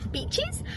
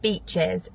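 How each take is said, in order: First: The vowel is short, sounding like bitches. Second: The vowel is long, clearly sounding like beaches. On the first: The speaker calls it wrong. "That didn't sound very good" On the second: The speaker calls it right. "That's better"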